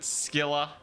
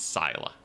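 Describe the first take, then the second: First: The name begins with an sk sound. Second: The name begins with a plain s sound. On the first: This is how one game says the name. "They pronounce it Skilla" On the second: This is how another game says the name. "In Warhammer, it's Syla"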